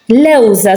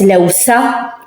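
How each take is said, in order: First: The middle consonant is a buzzing z sound. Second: The middle consonant is a hissing s sound. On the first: The speaker calls it right. "So you can hear that it's a Z" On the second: The speaker calls it wrong. "We don't say lewsa with an S"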